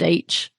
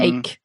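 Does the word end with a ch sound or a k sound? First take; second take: ch sound; k sound. First: The word ends with a ch sound. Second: The word ends with a k sound. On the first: The speaker calls it wrong. "head H. I hear quite a lot" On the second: The speaker calls it right. "ache, not H"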